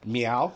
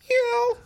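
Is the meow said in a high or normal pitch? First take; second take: normal; high. First: It is said at a normal pitch. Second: It is said at a high pitch.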